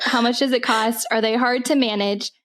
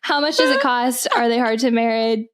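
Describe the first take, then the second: First: Said in the usual way. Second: Fighting real laughter. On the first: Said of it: "I need to be serious". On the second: Real, not acted. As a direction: read on while holding back laughter. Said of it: "I don't know why I'm laughing".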